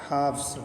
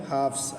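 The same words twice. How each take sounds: No difference in how they are said.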